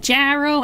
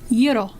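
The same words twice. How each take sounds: First: The word is pronounced the English way. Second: The word is pronounced the Greek way. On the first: The speaker calls it wrong. "Don't call it a gyro" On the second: The speaker calls it right. "for anyone that doesn't know Greek, it is gyro"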